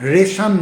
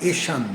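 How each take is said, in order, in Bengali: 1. শেষের অংশটা 'reshon' এর মতো উচ্চারিত হয়। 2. শেষের অংশটা 'eshan' এর মতো উচ্চারিত হয়। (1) "রেশন না"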